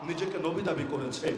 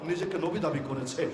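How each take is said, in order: No difference in how they are said.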